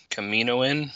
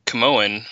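First: "Kaminoan" with the "min" syllable in, questioning; second, fuller attempt at "Kaminoan", as a question; unsure pronunciation. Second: "Camoan", shortened, without the "min" syllable; first stab at saying "Camoan"; unsure pronunciation. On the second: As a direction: say "Camoan" with the middle syllable dropped. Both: Real, not acted. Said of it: "don't know how to say this word".

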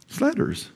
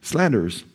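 First: High softer repeat. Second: Said in the usual way. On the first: Real, not acted. Repeats the word for emphasis.

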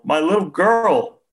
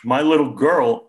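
First: Much higher, slow, louder wail; the father's grief breaking fully, slow high wail; wailing sob. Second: Higher, louder tearful lament; a father sobbing over his daughter, higher and louder; choked sobbing. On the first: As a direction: let the grief peak in a long wail. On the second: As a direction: cry out for his lost daughter. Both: A narrator's reading. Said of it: "he choked out".

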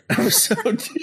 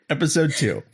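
First: High, laughing through the words; breaking into laughter. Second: Said in the usual way. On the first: Real, not acted. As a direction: crack up while announcing it.

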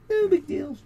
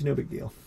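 First: Much higher, falsetto echo; squeaky put-on voice. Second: Said in the usual way. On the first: Co-host brushing off the missing page, in squeaky falsetto. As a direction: repeat it in a tiny high mock voice. Repeats own words in put-on voice.

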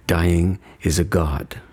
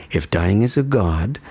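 First: Slow, low and weighted, stress on "god"; emphatic demo. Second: Said in the usual way. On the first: Shown as a demonstration. Showing the listener how to say it, slow and grave. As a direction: let "Dying is a god" land slowly, hitting "god". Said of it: "the emphasis on the right syllable and say it this way". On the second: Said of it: "say it this way".

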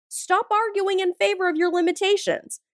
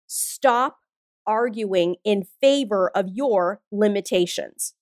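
First: Higher pitch, one unbroken run; insistent repeat. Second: Slow, deliberate. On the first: Coach presses her key message on listeners, higher and insistent. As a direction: drive the whole line through without pausing. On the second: Coach delivers her key message to listeners, slow and deliberate. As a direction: pause hard after Stop, then measured. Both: Real, not acted.

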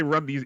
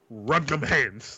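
First: Said in the usual way. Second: Slow, deliberate street threat; tough slang delivery. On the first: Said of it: "you can't say". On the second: Shown as a demonstration. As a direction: Run them hands, slow and weighty. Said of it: "you just gotta be like".

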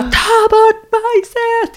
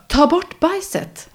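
First: Very high, slow, loud yell; retold scream. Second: High, slow, drawn-out request; first plea. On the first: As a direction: scream it out, losing all patience. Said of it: "Jag bara skrek". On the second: Retold or imitated. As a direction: ask it high and slow, still holding back. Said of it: "Och jag bara".

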